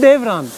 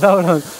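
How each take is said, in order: First: The first vowel is an 'e' sound. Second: The first vowel is an open 'a' sound. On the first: This is the Turkish form of the name. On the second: This is the local form of the name.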